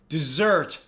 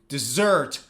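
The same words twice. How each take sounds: First: The stress is on the second syllable. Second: The same.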